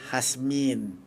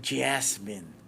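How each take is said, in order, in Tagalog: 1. Sinabi ang pangalan sa aksent na Spanish. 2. Sinabi ang pangalan sa aksent na American. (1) "yun ang pronunciation ng Kastila" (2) "American or English"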